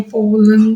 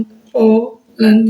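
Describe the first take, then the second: First: Said in the usual way. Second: "pollen" very slow, split as पो, लन; "pollen" sounded out in two separate beats; two syllables. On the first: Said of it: "उनको portion में जैसे हम बोलते". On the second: Shown as a demonstration. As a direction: break "pollen" into two portions with a pause. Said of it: "ये दो हो गई".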